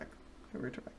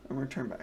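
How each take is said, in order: First: Mock hypnotist voice fading to a whisper. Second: Said in the usual way. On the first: Shown as a demonstration. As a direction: drop to a hush, then a whisper. Guided zone-out bit, fading.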